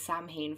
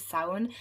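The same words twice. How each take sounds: First: It is pronounced letter by letter, as spelled. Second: It is not pronounced the way it is spelled. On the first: The speaker calls it wrong. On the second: The speaker calls it right.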